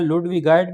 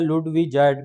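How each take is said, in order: First: The middle consonant is a hard g sound. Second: The middle consonant is a soft j sound. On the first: The speaker calls it wrong. "इसकी दो किस्म की pronunciation है, लुडविगाइट भी बोला जाता है" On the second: The speaker calls it right. "लुडविजाइट भी बोला जाता है, लेकिन जो असल प्रोनाउंसिएशन है वो है लुडविजाइट"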